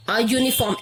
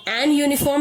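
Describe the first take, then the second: First: "a uniform" with A before the yoo sound; correct article. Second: "an uniform" with an N before the yoo sound; wrong article. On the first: Teacher giving the accepted form, "a uniform" with A before yoo. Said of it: "an uniform नहीं बोलेंगे". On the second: Teacher showing what we won't say, "an uniform" with N before yoo. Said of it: "नहीं बोलेंगे". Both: Shown as a demonstration.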